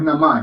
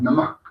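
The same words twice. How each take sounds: First: The word ends without an audible puff of breath. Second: The word ends with an audible puff of breath. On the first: The speaker calls it wrong. "no es Namah" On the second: The speaker calls it right. "Siempre tiene que haber esa expulsión de aire en la pronunciación del Namah"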